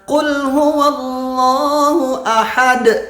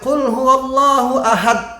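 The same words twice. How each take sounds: First: The final d has an audible echoing bounce. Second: The final d is cut off without bounce. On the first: The speaker calls it right. "Yang benar" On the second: The speaker calls it wrong. "Nggak boleh"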